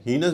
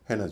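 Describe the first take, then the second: First: हीनस with a long "ee"; first accepted pronunciation. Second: हेनस with an "ay" first vowel; second accepted pronunciation. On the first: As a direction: say हीनस as "HEE-nus", pitched up. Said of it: "इसे हीनस भी कहते हैं". (हीनस, लंबी "ई" के साथ) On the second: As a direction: say हेनस as "HAY-nus", pitched down. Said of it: "हेनस भी कहते हैं". (हेनस, पहले अक्षर में "ए") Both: Shown as a demonstration.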